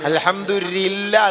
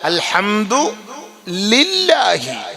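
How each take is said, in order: First: The phrase ends on 'lla' without the final 'hi'. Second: The phrase ends with a pronounced final 'hi'. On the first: The speaker calls it wrong. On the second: The speaker calls it right.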